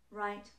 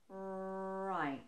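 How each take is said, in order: First: The word is said at normal speed. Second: The word is drawn out slowly. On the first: "when I speak normally at normal pace" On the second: "if I were to slow the word down"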